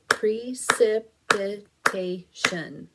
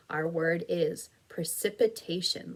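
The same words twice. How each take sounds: First: Precipitation said slowly and loudly as Pre-cip-i-ta-tion; five slow, loud, even beats on Precipitation; clapped syllables. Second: Said in the usual way. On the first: Shown as a demonstration. Teacher claps out Precipitation for the class, slow and loud. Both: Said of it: "Let's clap it".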